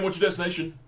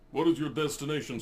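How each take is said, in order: First: It is said in his natural voice. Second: It is said in a put-on cab driver voice.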